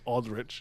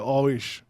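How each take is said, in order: First: The D sound in the name is pronounced. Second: The D sound in the name is dropped. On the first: This is the name as it is officially given. "So his name is Aldrich" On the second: This is how Haitians say the name. "but of course Haitians we say Alrish. We leave out the D"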